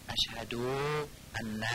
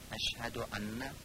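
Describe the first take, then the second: First: The short vowel is stretched out long. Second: The short vowel is kept short. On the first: The speaker calls it wrong. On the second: The speaker calls it right.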